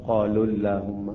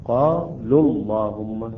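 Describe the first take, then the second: First: قالوا اللهم with the wa of قالوا voiced, a wrong take; wrong reading. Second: اللهم with a full, heavy lam, the wa of قالوا silent, slow; teacher recites قالوا اللهم slowly, lam thick; heavy lam in Allah. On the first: Teacher warning students, mistaken pronunciation. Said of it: "لا نقرأ". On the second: Teacher reciting to students, heavy lam in اللهم. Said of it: "هاي كلها تفخيم". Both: Shown as a demonstration.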